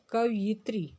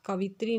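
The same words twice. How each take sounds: First: कवयित्री said ka-va-yit-ri with the y; कवयित्री in four syllables; correct form said. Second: कवित्री said ka-vit-ri, without the y; wrong form कवित्री in three syllables; कवित्री with no ya sound. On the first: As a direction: correct कवयित्री, y sound clearly in it. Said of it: "शुद्ध शब्द होता है कवयित्री". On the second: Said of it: "कवित्री नहीं होता है". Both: Shown as a demonstration.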